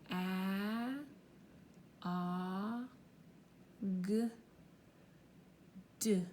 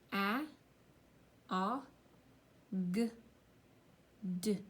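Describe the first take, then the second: First: The sounds are said slowly. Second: The sounds are said at normal speed.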